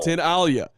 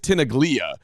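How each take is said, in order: First: No g sound is heard in the middle. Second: A hard g sound is heard in the middle. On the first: The speaker calls it right. "It's pronounced" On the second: The speaker calls it wrong. "when you look at it, you would think it's Tinaglia"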